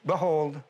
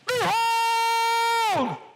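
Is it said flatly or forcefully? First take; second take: flatly; forcefully. First: It is said flatly and without force. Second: It is said forcefully, like a command.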